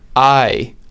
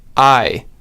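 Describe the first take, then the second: The two takes are said the same way.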